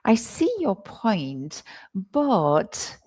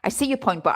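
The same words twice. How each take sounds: First: The word 'but' is drawn out with hesitation. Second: The word 'but' is short, without hesitation. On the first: The speaker acknowledges the point before politely disagreeing. The speaker calls it right. "The intonation on but is also interesting there" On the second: The disagreement sounds less polite. The speaker calls it wrong. "if you don't, if you just say"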